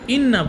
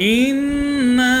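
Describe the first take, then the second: First: The final vowel is cut short. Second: The final vowel is held long. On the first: The speaker calls it wrong. "এখানে ইন্না পড়ছে, ভুল" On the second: The speaker calls it right. "এটাকে আপনাকে টানতে হবে, যথেষ্ট পরিমাণ টানতে হবে এটাকে"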